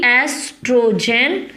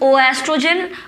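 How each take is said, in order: First: The word starts directly with 'estrogen'. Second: An 'o' sound is said before 'estrogen'. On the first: The speaker calls it right. "ओ है वो silent होता है, तो it is simply एस्ट्रोजन" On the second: The speaker calls it wrong. "Don't call it is ओ एस्ट्रोजन"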